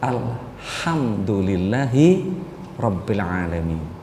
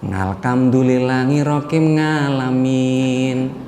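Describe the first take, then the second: First: The final word begins with a vowel sound. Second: The final word begins with an 'ng' sound. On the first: The speaker calls it right. "yang bener mah" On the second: The speaker calls it wrong. "Nggak gitu bacanya"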